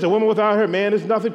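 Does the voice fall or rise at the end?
falls. The voice falls at the end like a statement.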